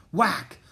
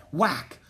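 No difference in how they are said.

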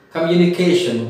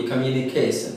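First: Said in the usual way. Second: "communication" ending in -sun, not -shun. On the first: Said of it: "Instead of sh, they say s". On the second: Shown as a demonstration. Teacher mimics Odisha speakers, "communication" with s for sh. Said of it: "they say s".

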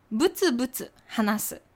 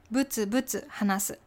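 Both takes have the same delivery.

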